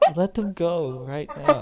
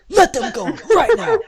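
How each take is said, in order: First: It is said mildly, with little emphasis. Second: It is said forcefully, with strong emphasis.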